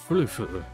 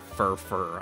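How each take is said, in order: First: The name is split as furf plus er. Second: The name is split as fur plus fur. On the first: The speaker calls it right. "the pronunciation is odd. ... It's it's more like furf, and then the er is the other syllable" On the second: The speaker calls it wrong. "It's not fur fur"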